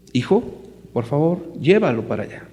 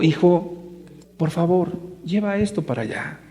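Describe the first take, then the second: First: A father asking his son evenly, lightly voiced; polite father's request. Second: Softer, coaxing father's plea; gentle father. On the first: Father asking his little son to carry something, plain polite request. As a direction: ask the boy kindly to carry it over. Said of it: "yo como papá, yo quiero pedirle a mi hijo". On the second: Pretend. Father coming close to coax his defiant son, soft gentle voice. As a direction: plead gently, almost tenderly, with the boy. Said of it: "Entonces yo me acerco como papá y le digo".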